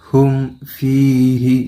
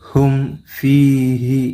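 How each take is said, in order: No difference in how they are said.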